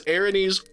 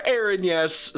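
First: Erinyes said as "AIR-uh-neez"; first pronunciation. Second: Erinyes said as "AIR-in-yes"; alternative pronunciation. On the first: Co-host laying out both options, Erinyes pronounced AIR-uh-neez. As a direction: finish Erinyes with a long "neez". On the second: Co-host laying out both options, Erinyes pronounced AIR-in-yes. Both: Shown as a demonstration. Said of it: "an alternative pronunciation that is still valid".

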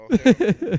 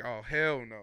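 First: "hell" yelled high and much louder; much louder, higher panicked repeat of "hell no". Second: Said in the usual way. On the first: Retold or imitated. Scared quote, repeated louder.

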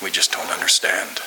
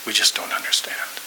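First: Said in the usual way. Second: Soft whispered repeat, breath only. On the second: Retold or imitated. Pastor consoling a crying friend, whispering. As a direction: whisper it close to his ear.

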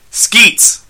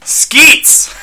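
First: Straight-faced loud, high call; raised-voice summons without the laugh; Michael. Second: High cracking yell, close to laughter; over-the-top shouted call. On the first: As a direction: yell for your robot, keeping it serious. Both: Acted. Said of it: "Michael yelled to his robot companion".

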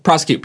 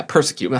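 First: "Prosecute" opening with PROSS, not PURSE; corrected word. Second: "persecute" opening with PURSE; mistaken word. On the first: Friend corrected the storyteller's word, so "Prosecute" said with PROSS. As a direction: say "Prosecute" with an open first vowel. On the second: Storyteller replaying his slip to friends, "persecute" starting PURSE. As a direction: say "persecute" with an r-coloured first syllable. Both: Real, not acted.

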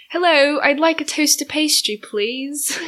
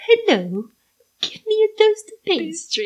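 First: Higher, put-on English accent; playful mock English accent, pitched up. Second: Brazilian attempting an English accent; high, struggling mock English accent; badly faked English accent, laughing at the end. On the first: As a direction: demonstrate a polite English accent. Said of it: "How do you do an English accent". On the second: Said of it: "Brazilian doing an English accent".

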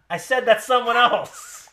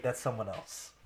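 First: Loud, high, slow repeat; mock yelling. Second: Said in the usual way. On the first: Repeating himself to an unresponsive co-host, mock yell. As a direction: yell it, drawing the words out. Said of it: "I don't wanna yell at".

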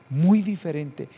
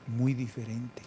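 First: "Muy diferente" louder with weight on "Muy"; emphatic repeat. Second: Said in the usual way. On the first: Shown as a demonstration. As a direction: punch "Muy diferente" the second time. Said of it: "repeated for emphasis".

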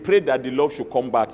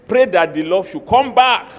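First: Said in the usual way. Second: Louder, pressing the word pray; louder repeat. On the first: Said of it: "If you don't love him again". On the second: Shown as a demonstration. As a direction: drive the advice home forcefully. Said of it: "where that love went".

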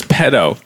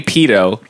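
First: "pedo" with a short e, as PED-oh; short-e pronunciation. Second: "pedo" with a long ee, as PEE-doh; British pronunciation. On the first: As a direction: say "pedo" to rhyme with meadow. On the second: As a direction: say "pedo" with first syllable like pea. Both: Shown as a demonstration. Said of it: "it's pedo if you're British".

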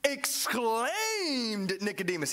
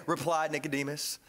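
First: "exclaimed" stretched long and slow with a swell; emphatic "exclaimed". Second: Said in the usual way. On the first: Shown as a demonstration. Preacher highlights the verb, "exclaimed" stretched out emphatically. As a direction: draw out the middle of "exclaimed" dramatically. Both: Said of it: "He doesn't just say".

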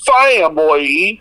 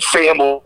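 First: Family stretched slow in a put-on Southern drawl; fake Southern drawl. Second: Said in the usual way. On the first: Shown as a demonstration. Mocking the coach's fake Southern family. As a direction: drag Family out slowly like a fake Southern accent. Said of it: "said it like".

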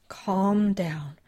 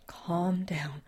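First: Firmer, louder whisper; whispered mantra. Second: Whispered mantra. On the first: Susan forcing herself calm after the run, firmer whisper. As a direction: whisper it harder, insisting. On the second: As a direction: whisper it to steady yourself. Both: Acted. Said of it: "she repeated the mantra".

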